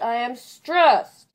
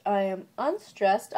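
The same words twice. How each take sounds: First: "I am stressed" shouted slowly, higher, STRESSED stretched; heavily stressed demo. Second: "I am unstressed" drawn out, the milder of two beats; unstressed demo. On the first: Vlogger contrasting weak and strong beats, heavily stressed. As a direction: blast STRESSED in "I am stressed", long and high. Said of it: "there's one stressed". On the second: Vlogger contrasting weak and strong beats, unstressed demo. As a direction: hold "I am unstressed" back, slow and measured. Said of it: "one unstressed syllable per iamb". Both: Shown as a demonstration.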